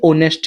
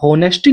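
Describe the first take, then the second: First: The word begins with a vowel, no h. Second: The word begins with an audible h sound. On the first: The speaker calls it right. "एच इसमें silent होता है" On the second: The speaker calls it wrong. "ये होनेस्टी नहीं होता"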